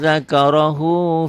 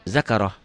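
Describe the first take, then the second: First: The word ends with an added u vowel. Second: The word ends short on an h sound. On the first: The reciter carries on to the next word. "Kalau disambung" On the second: The reciter stops on this word. "kalau dihentikan jadi pendek"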